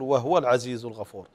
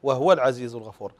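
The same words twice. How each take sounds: No difference in how they are said.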